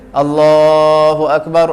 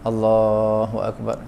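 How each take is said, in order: First: It is said loudly. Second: It is said softly.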